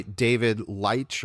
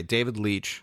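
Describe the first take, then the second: First: Leitch said as "lytch", rhyming with "H" but with a long i; mistaken pronunciation. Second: Leitch said as "leech", with a long ee; corrected pronunciation. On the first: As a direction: say Leitch with the vowel of "light". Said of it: "I believe it's Leitch". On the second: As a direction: say Leitch to rhyme with "beach". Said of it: "it's pronounced like my last name". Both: Real, not acted.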